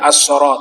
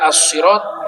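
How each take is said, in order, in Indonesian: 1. Bunyi s-nya tebal dan berat. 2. Bunyi s-nya tipis dan ringan. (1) "menggunakan huruf shad" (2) "bisa dibaca as-sirat"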